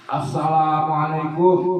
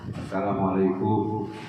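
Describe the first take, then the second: First: It is said with a clearly raised voice. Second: It is said at a normal, softer volume.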